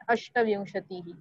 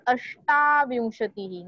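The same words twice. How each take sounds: First: अष्टविंशतिः with a short, quick "shta". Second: अष्टाविंशतिः with the "shtaa" held long. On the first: Teacher showing the wrong twenty-eight, short "a" pronunciation. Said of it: "not अष्टविंशतिः". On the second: Teacher star-marking twenty-eight, long "aa" pronunciation. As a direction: stretch the middle "aa" in अष्टाविंशतिः. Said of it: "Again it is अष्टाविंशतिः". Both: Shown as a demonstration.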